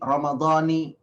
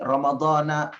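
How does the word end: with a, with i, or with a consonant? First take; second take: with i; with a. First: The word ends with a final i vowel. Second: The word ends with a final a vowel. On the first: "ada yang mengatakan"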